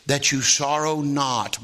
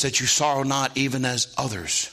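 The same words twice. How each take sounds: First: Slow "sorrow not", closed as if finished; full stop after NOT. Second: "sorrow not even as others" run together; no stop after NOT. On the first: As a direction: end the sentence firmly on "not". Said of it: "there's no period after that". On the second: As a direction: carry straight on past "not" into "even as others". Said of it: "It says this". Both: Shown as a demonstration.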